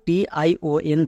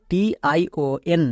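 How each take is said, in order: Both takes have the same delivery.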